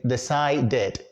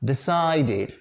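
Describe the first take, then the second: First: "decided" ending in "dead", with an open e; mispronounced -ed ending. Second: "decided" with "did" as last syllable; correct -id ending. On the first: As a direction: demonstrate the mistake "decided" as de-CY-dead. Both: Shown as a demonstration. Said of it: "You don't say decided".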